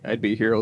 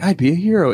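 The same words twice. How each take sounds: First: It sounds rueful, as if undeserved. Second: It sounds proud and pleased with itself.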